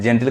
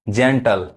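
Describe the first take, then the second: First: The last syllable has an 'i' vowel. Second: The last syllable has a reduced vowel. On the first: The speaker calls it wrong. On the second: The speaker calls it right.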